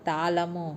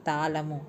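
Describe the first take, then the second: No difference in how they are said.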